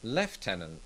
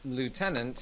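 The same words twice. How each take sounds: First: It is said with a British pronunciation. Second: It is said with an American pronunciation. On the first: "British people say lieutenant" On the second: "Americans pronounce the word lieutenant as lieutenant"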